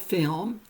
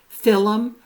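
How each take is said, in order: First: Film is said as one syllable. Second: Film is said as two syllables. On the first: "for film" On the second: "Lowland Scots say film"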